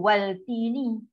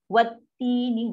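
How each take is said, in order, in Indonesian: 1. Bunyi L terdengar jelas sebelum T. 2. Bunyi L menyatu ke dalam T yang dirangkap. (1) "Jangan macam waltini" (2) "Masuk dan tekan dia. Sekali jalan"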